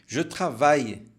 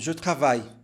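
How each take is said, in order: First: The phrase is spoken very slowly and fully. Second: The phrase is spoken faster with a reduced ending. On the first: "se for falar bem devagar" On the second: "Um pouco mais rápido"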